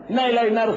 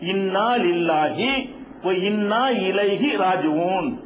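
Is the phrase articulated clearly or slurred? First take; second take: slurred; clear. First: The words are slurred and run together. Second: Each word is pronounced fully and distinctly. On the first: The speaker calls it wrong. "அது கரெக்டா முழு முழுசாக சொல்ல மாட்டாங்க" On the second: The speaker calls it right. "தெளிவா அழுத்தம் திருத்தமா என்ன செய்யணும், உச்சரிக்க வேண்டும்"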